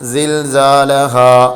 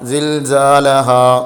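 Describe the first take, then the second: The two takes are said the same way.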